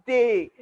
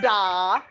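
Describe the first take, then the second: First: The syllable ends in an 'ee' vowel. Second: The syllable ends in an 'ah' vowel. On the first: The speaker calls it right. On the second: The speaker calls it wrong.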